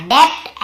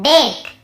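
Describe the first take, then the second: First: Slow "डेप्ट", with a B/P stop before T; B pronounced. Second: "डेट" as det, straight into T; silent B. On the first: Teacher shows students the misreading, "डेप्ट" with B sounded. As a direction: slowly join "डेप्ट" as deb-t. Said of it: "ऐसे पढ़ते". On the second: Teacher corrects debt for students, "डेट" with no B. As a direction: leave B out of "डेट". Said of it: "हमें बी को नहीं पढ़ना है". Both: Shown as a demonstration.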